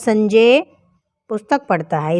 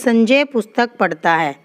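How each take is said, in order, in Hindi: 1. पहला शब्द तेज़ जोर रखता है। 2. कोई भी शब्द खास जोर नहीं रखता। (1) "बलाघात देते हैं संजय के ऊपर" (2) "सिंपल से एक बात है"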